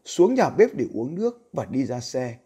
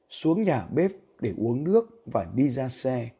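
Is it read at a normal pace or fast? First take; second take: fast; normal. First: It is read about twenty percent faster. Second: It is read at a normal pace.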